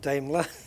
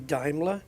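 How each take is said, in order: First: It is said the speaker's old, non-German way. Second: It is said the German way. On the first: The speaker calls it wrong. "all my life pronouncing Daimler as Daimler" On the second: The speaker calls it right. "that's how the Germans pronounce it"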